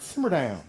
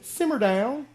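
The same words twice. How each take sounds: First: Firm put-down with a falling end; mock telling-off. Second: Very high, loud, rising put-down; hammed-up order to quieten down; exaggerated telling-off. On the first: Crowd hushing Bartimaeus in Southern phrase, firm mock telling-off. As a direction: imitate telling someone to quieten down. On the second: Crowd hushing Bartimaeus in Southern phrase, high exaggerated scolding. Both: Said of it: "That's a good one in the South".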